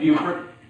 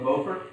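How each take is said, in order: First: The name is pronounced the local way. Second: The name is pronounced the French way. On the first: It names the town as people there say it. "But it's Beaufort. And if you go there, it's Beaufort" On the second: It names the Frenchman the town was named after. "named after a Frenchman by the name of Beaufort"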